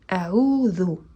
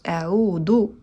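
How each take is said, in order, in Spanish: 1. La consonante del medio es una 'th' suave. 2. La consonante del medio es una 'd' simple. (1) "se dice con la letra del, sacando un pelín la lengua. Esta es la manera correcta" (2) "si decimos del en vez de del ... es incorrecta"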